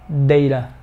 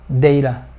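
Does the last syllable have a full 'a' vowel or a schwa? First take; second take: schwa; schwa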